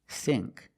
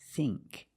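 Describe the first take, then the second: First: The vowel is a short I sound. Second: The vowel is a long E sound. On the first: The speaker calls it wrong. "It's not think" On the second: The speaker calls it right. "it's think. It's the long E"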